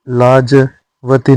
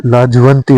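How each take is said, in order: First: लाजवती without a nasal; wrong form. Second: लाजवंती with an n before t; correct form. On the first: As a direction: drop the n in लाजवती. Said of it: "नहीं होता है". (लाजवती बिना अनुस्वार) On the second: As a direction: sound the nasal in लाजवंती. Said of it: "होता है". (लाजवंती में अनुस्वार) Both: Shown as a demonstration.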